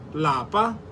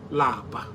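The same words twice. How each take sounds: First: The word is said with a high tone. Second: The word is said with a low tone. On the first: It means home. "In higher tone" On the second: It means to be tired. "Lower tone"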